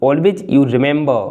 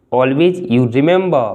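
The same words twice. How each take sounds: The two takes are said the same way.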